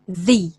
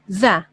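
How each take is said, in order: First: The vowel is a long, clear 'ee' sound. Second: The vowel is a short, weak 'uh' sound. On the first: The next word begins with a vowel sound. "if the next word begins with a vowel sound, the in this case is pronounced the" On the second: The next word begins with a consonant sound. "if the word starts with a consonant sound, we pronounce the"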